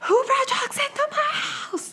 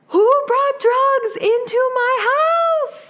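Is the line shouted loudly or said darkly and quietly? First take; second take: darkly; loudly. First: It is said in a dark, quieter accented tone. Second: It is shouted loudly in a thick accent.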